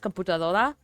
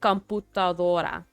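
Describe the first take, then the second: First: The word is said quickly. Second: The word is said slowly. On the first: The speaker calls it wrong. "if I say it fast" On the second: The speaker calls it right. "If I say it slowly"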